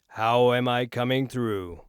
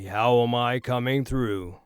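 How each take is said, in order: First: Much of the voice's bass is removed. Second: The lowest bass of the voice is trimmed. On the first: "Right now I'm on negative one sixty" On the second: "Right now we are negative eighty"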